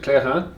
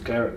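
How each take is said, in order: First: The word is pronounced with French sounds. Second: The word is pronounced with English sounds. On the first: "the lovely French way of saying it" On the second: "for us uh, native English speakers, we're quite happy with"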